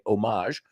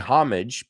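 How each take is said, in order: First: The word is said with a French pronunciation. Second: The word is said with an American pronunciation. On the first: "I want to sound French, say homage" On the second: "We say homage"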